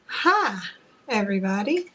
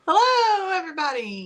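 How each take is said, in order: First: The greeting sounds bland and flat. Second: The greeting sounds lively and energetic.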